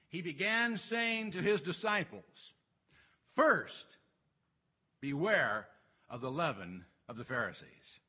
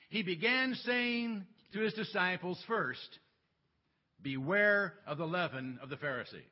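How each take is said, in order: First: The pause comes before the word first. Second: The pause comes after the word first.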